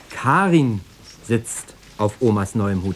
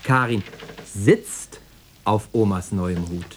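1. Betont wird das Wort Karin. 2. Betont wird das Wort sitzt. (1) "Ja, natürlich, Karin" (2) "Stehen wäre ja auch auf die Dauer zu unbequem"

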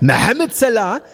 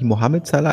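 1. Der Name wird mit nachgeahmten arabischen Lauten gesprochen. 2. Der Name wird mit einfachen deutschen Lauten gesprochen. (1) "nur ich kann ihn ja richtig aussprechen" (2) "Er heißt natürlich nicht"

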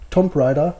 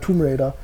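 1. Tomb wird mit einem kurzen o-Laut gesprochen. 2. Tomb wird mit einem langen oo-Laut gesprochen. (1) "wenn ihr damals ein Wort falsch ausgesprochen habt, ich habe damals wirklich immer gesagt" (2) "aber mich heißt es ja Tomb Raider"

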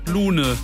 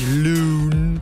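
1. Der Name wird mit deutscher Aussprache gesagt. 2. Der Name wird mit englischer Aussprache gesagt. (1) "Könnte man jetzt auf gut Deutsch einfach sagen" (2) "dass man die Geschichte englisch ausspricht"

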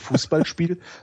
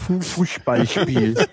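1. Das S klingt scharf und zischend. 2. Das S klingt dumpf und gedämpft. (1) "sagst du eben nicht zum Beispiel Fußballspiel" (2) "Du nimmst einfach zwei Flaschenkorken und steckst die in die Wangen"

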